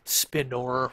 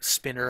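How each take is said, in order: First: The second vowel is a clear 'o' sound. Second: The second vowel is reduced, like 'spinner'. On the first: "where you kind of emphasize that there's an O in there" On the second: "I've heard people pronounce it spinner"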